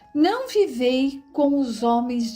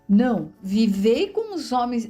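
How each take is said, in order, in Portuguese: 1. As palavras seguem sem pausa depois de não. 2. Há uma pausa logo depois de não.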